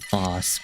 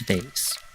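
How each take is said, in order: First: The vowel is an 'ah' sound, like 'father'. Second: The vowel is an 'ay' sound, like 'day'. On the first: "I know some of you like to pronounce it boss" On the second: "but it's vase"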